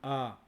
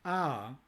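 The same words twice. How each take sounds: First: It is said on a level mid pitch. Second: It is said with a falling pitch. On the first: It works as a focus marker. "A con el tono medio de tres" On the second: It works as a topic marker. "A marcado con tono descendente"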